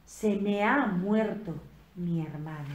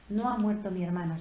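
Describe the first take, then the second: First: "Se me ha muerto" said slowly, weight on "me ha"; slow, leaning on "me ha", the loss made her own; "me ha" drawn out and stressed. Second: Said in the usual way. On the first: Shown as a demonstration. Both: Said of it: "sino es".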